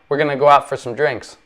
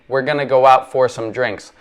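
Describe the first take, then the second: First: The words are run together and reduced. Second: Each word is said fully and carefully. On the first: The speaker calls it right. "if you listen to a person who speaks quickly" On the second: The speaker calls it wrong. "We don't normally say"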